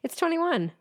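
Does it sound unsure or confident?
confident. It sounds sure, like a statement.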